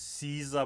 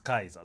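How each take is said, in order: First: The name begins with an S sound. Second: The name begins with a K sound. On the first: The speaker calls it wrong. "it's Caesar" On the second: The speaker calls it right. "the correct uh, pronunciation is Kaiser"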